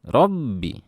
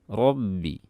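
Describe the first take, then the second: First: The doubled b gets heavy, exaggerated pressure. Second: The doubled b is said lightly, without extra pressure. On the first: The speaker calls it wrong. "jangan dibaca dengan tekanan yang berlebihan" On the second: The speaker calls it right. "Biasa aja"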